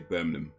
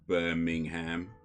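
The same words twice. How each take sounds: First: It has a British accent, letters shortened. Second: It has an American accent, every letter pronounced. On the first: "Brits would just say Birmingham, you know, like that" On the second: "Americans would say Birmingham"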